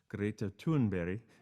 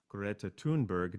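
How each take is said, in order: First: The name is said with Swedish sounds. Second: The name is said with English sounds. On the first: "the correct pronunciation of her name is Greta Thunberg. That's my best Swedish" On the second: "that's how we would pronounce it"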